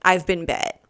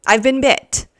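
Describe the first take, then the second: First: Said in the usual way. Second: Higher, louder repeat of I've been bit; dramatic repeat. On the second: Shown as a demonstration. Telling strangers about the ant bite, louder dramatic repeat. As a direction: announce the bite like a big reveal.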